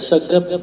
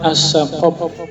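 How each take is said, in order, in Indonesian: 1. Huruf tengahnya G biasa. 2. Huruf tengahnya Q yang dalam, keluar dari tenggorokan. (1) "cuma dibaca As-Sagab" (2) "Aslinya tuh As-Saqab"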